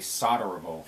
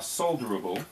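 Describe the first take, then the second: First: It is pronounced in an American way. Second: It is pronounced in a non-American way.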